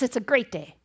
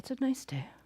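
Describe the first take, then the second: First: It is said brightly with high energy. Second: It is said flatly with low energy.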